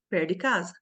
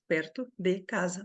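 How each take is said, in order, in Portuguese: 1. As palavras são emendadas num fluxo só. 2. Cada palavra é dita separadamente, de forma distinta. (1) "na linguagem oral, a gente fala" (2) "Três palavras"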